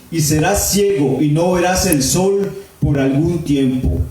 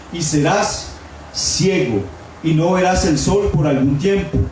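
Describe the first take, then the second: The two takes are said the same way.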